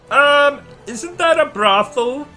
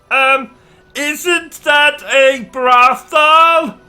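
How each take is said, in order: First: It is said at normal volume. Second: It is said noticeably louder.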